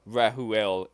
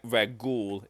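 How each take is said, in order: First: The name is said with three syllables. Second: The name is said with two syllables. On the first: This is a closer attempt at the original name. "three syllable" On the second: This is how the name is more commonly said. "two syllable"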